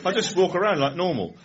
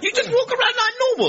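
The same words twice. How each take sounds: First: Said in the usual way. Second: Put-on high, loud incredulous young chap; mock amazement at something utterly ordinary; baffled disbelief. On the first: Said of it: "I just said". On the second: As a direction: squeal it back as an astonished question. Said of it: "he was absolutely baffled by that".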